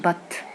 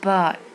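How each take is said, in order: First: The final t is clearly and fully released. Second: The final t is held and barely heard. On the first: "ما قالش but" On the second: "وقال but، ما طلعش التي واضحة قوي"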